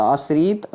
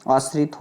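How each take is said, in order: First: आश्रित drawn out as "aas-reet"; long-ee mispronunciation. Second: आश्रित said "aas-rit", short i; short-i correction. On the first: Teacher shows the error, आश्रित as slow "aas-reet". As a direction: stretch the last vowel of आश्रित slowly. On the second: Teacher corrects students, आश्रित as "aas-rit". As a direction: keep the last vowel of आश्रित short. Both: Shown as a demonstration. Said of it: "छोटी की मात्रा होती है".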